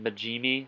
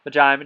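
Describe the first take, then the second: First: The name is pronounced the Japanese way. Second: The name is pronounced the English way. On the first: The speaker calls it right. "I think that's the actual Japanese pronunciation for it" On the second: The speaker calls it wrong. "or shit, is it Majimi?"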